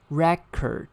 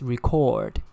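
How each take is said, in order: First: The stress is on the first syllable. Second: The stress is on the second syllable. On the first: It is used as a noun. "when it is used as a noun, it should be record. The stress falls on the first syllable" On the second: It is used as a verb. "when it is used as a verb, it's record. The stress falls on the second syllable"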